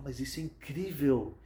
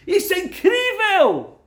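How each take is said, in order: First: Said in the usual way. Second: Astonished cry. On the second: Acted. Doctor repeats it in astonishment.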